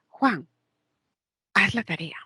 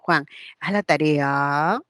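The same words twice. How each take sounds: First: The pitch falls at the end. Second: The pitch rises at the end. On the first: The speaker calls it right. "Esa también es descendente" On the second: The speaker calls it wrong. "No digo"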